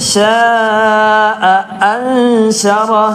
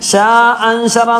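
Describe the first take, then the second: First: A glottal catch and short a follow sha. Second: Sha runs straight into anshara without a catch. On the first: The speaker calls it right. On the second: The speaker calls it wrong. "ഷാ അൻശറ എന്ന് പറയുന്നത്"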